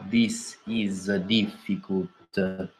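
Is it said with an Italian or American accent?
Italian. It is said with a heavy Italian accent.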